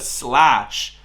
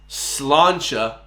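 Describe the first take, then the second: First: It is said as one short syllable. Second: It is said as two syllables ending 'cha'. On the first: The speaker calls it wrong. "This man said slash" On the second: The speaker calls it right. "It's slancha"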